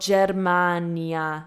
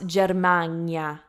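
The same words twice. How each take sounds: First: The N is plain, followed by a separate I. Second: The N is palatal, like the NY sound. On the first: The speaker calls it right. "placed in the front, that's the N I A" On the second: The speaker calls it wrong. "Not Germania"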